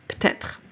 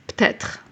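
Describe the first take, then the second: First: Part of the word is dropped, said quickly. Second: Part of the word is dropped, said quickly.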